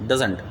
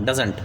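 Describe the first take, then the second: Both takes have the same delivery.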